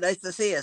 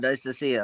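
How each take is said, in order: First: It is said in a higher voice. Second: It is said in a lower nasal voice.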